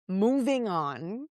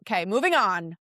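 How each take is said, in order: First: Slow, stretched moving on; drawn-out. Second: Said in the usual way. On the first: Shown as a demonstration. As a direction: drag the words out deliberately. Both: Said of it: "repeated slower".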